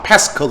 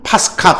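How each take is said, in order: First: It is said the English way, ending in -ker. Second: It is said the Greek way, ending in -ka. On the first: "영어식 발음으로는" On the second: "그리스 발음으로는"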